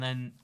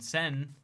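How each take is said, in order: First: It starts with an English th sound. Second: It starts with an s sound.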